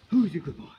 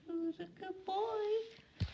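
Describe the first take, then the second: First: Loud, excited dog praise; loud praising a dog. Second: Very high, slow, soft dog praise; squeaky praising a dog. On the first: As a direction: cheer the dog on loudly. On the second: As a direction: coo it up high at the pup. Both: Real, not acted.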